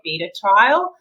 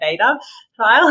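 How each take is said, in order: First: It is said in a non-American accent. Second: It is said in an American accent.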